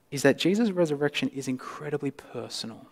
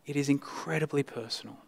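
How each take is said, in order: First: Said in the usual way. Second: "is" leaned on, line said much softer; stress on is. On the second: Shown as a demonstration. Preacher repeats the point, hushed, stressing "is". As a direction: softly press the word "is" in "It is incredibly personal". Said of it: "is that Jesus' resurrection is incredibly personal".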